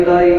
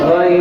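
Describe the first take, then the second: No difference in how they are said.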